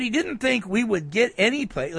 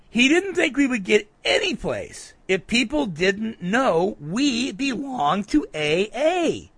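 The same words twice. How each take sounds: First: Said in the usual way. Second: "any place" punched high, then "know we belong to A A" drawn out slowly; emphatic rereading. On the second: Retold or imitated. Rereads it after "listen to this.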